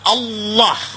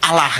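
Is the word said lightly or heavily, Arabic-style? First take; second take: heavily; lightly. First: It is said heavily, Arabic style. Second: It is said lightly, Indonesian style.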